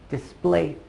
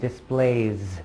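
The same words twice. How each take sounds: First: The word ends with a hissing s sound. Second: The word ends with a buzzing z sound. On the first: The speaker calls it wrong. "it ends with an S, but you don't say displays" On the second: The speaker calls it right. "You say displays... a Z sound instead"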